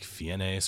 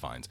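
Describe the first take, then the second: First: The surname is pronounced as its spelling suggests. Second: The surname is pronounced unlike its spelling. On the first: The speaker calls it wrong. "it could be like Fiennes or something like that" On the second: The speaker calls it right. "but it's Fiennes"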